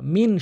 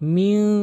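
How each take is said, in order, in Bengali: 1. শেষের ন স্পষ্ট ন হিসেবে উচ্চারিত হয়। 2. শেষের ন লুকানো এবং নাসিকাযুক্ত। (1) "অধিকাংশ লোক কী বলে মিন শাররিল" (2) "আমি কিন্তু মিং নাকের ভিতরে নিয়ে বলছি"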